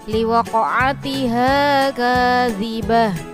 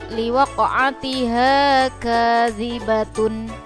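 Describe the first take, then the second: First: The last word ends with an h sound. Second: The last word ends with a full t-syllable. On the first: The reading stops at this word. "Ketika wakof atau dibaca berhenti menjadi" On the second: The reading continues without stopping. "ada tak marbuto yang berharokat dhummatain"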